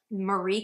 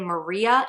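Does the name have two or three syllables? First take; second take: two; three. First: The name is said with two syllables. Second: The name is said with three syllables. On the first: The speaker calls it wrong. "written as though it should be pronounced Marie Kondo" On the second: The speaker calls it right. "pronounced in three syllables, not two"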